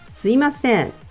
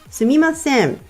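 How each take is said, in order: First: The second syllable is pronounced 'i'. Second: The second syllable is pronounced 'mi'. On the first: This is how most people say it. "most people pronounce it すいません" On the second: This is the written form. "written as すみません"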